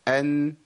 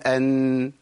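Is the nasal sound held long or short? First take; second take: short; long. First: The nasal sound is held only briefly. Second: The nasal sound is held for a long time. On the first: The speaker calls it right. "التوسط زمن جريان الصوت فتره بسيطه قوي" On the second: The speaker calls it wrong. "لا لو زودت شويه يبقى انت عملت غنه مبالغ فيها"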